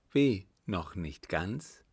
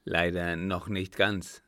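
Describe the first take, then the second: First: Slow "Wie", then "noch nicht ganz" rising as a question; drawn-out questioning "Wie, noch nicht ganz?"; incredulous question. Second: Said in the usual way. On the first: A narrator's reading. Countess echoes the answer incredulously.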